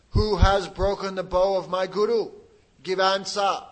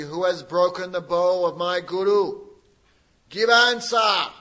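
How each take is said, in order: First: Loud, slow, much louder furious roar; furious demand. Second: Very angry shout. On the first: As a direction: bellow it at the kings, demanding an answer. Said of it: "shaking with anger". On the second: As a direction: roar the demand at full force. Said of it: "very angry". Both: Acted.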